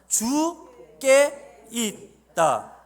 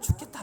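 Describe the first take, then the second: First: It is said slowly, syllable by syllable. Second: It is said quickly as one word.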